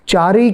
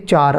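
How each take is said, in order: First: The word ends with a short i vowel. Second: The word ends on the final consonant. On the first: The speaker calls it wrong. "चारी के बदले" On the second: The speaker calls it right. "चार आएगा"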